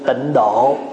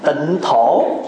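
First: The second word begins with a d sound. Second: The second word begins with an aspirated t sound. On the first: This is the usual Vietnamese reading. "người Việt đọc là gì?" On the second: This follows the reading of the Chinese character. "chữ Thổ đàng hoàng mà"

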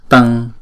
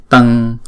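No difference in how they are said.

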